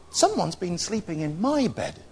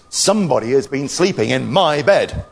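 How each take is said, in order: First: Soft, higher mother bear voice; gentle Mother Bear. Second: Loud Father Bear growl; great big growly voice. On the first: Mother Bear sees bedclothes turned back, soft high voice. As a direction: say it lightly and softly as Mother Bear. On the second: Father Bear sees his untidy bed, growly voice. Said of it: "in his great big growly voice". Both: Acted.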